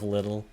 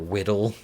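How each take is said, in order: First: The word begins with an L sound. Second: The word begins with a W sound. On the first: It is the ordinary adult form. "instead of little" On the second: It is a baby-talk form. "substitutions, like little or whittle"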